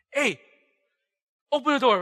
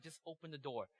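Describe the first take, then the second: First: Loud, raised-pitch order through a door; shouted demand. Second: Soft, restrained command; quiet firm order. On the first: Youth teacher at the boy's door at night, shouting. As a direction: yell it like you're pounding on the door. Acts knocking angrily at a door. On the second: Youth teacher answering the boy's excuses at the door, quietly insistent. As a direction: drop the volume and insist. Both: Acted.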